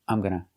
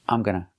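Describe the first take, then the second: Both takes have the same delivery.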